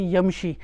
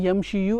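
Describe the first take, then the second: First: The word ends on a long 'ee' sound. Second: The word ends with an added 'yu' sound. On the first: The speaker calls it right. "I say yamshi" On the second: The speaker calls it wrong. "rather than saying yamshi yu"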